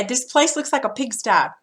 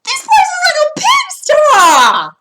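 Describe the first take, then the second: First: Said in the usual way. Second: High, loud, slow outraged exclaim; higher and louder with disgust; exclamation. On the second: Shown as a demonstration. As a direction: shout it at the messy kitchen. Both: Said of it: "I probably would say it like this".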